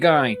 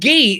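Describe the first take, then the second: First: The name is said the English way. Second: The name is said the French way.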